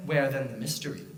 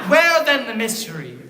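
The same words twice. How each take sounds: First: Low, soft dramatic question; hushed question. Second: Louder with a laugh; booming question. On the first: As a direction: pose it in a hush. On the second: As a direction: boom it to the hall. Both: Acted.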